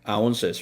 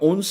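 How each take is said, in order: First: It is said with English pronunciation, ounces. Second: It is said as the Korean loanword onseu. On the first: The speaker calls it right. "영어는 ounces라고 발음하셔야 됩니다" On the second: The speaker calls it wrong. "온스 아니고요. 한국말은 온스지만"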